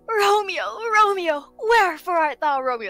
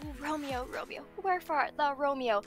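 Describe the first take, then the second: First: It is delivered in an exaggerated, dramatic way. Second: It is delivered in a restrained, conventional way.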